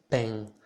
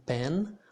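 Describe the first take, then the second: First: Pen with a nasal Brazilian vowel and no n; Brazilian accent. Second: Said in the usual way. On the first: Shown as a demonstration. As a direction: Brazilian pẽ, n swallowed into the nose. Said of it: "Instead of saying pen, I would say pen". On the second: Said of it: "Instead of saying pen".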